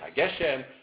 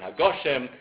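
First: The vowel after 'g' is an 'eh' sound. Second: The vowel after 'g' is an 'oh' sound. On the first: The word is treated as not ending a phrase. "It can perhaps also change a segel to a comma" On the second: The word is treated as ending a phrase. "It can perhaps also change a segel to a comma"

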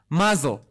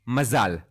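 First: The word is given a Yiddish pronunciation. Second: The word is given a Hebrew pronunciation.

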